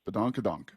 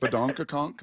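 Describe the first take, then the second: First: The final syllable starts with a d sound. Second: The final syllable starts with a k sound. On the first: The speaker calls it right. "It's a donk at the end" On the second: The speaker calls it wrong. "it's not conk"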